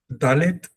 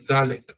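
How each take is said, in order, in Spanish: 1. El primer sonido es una d dura. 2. El primer sonido es una d más suave. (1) "Dalet con D" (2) "más suave"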